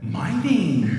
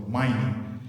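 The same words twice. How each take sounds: First: It is said with excited, exclaiming surprise. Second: It is said as a flat statement.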